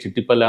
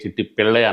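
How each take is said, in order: First: The surname ends with the sound 'palli'. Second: The surname ends with the sound 'pillai'. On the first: "చిట్టిపల్లి అనొచ్చు" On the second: "లేదంటే అరుణ్ కే. చిట్టి పిళ్ళై అనొచ్చు"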